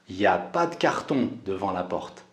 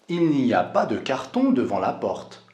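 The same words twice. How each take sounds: First: The phrase starts with shortened 'y a'. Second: The phrase starts with full 'il n'y a'. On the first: This is casual spoken speech. "Je vais dire" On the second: This is the standard form. "au lieu de dire"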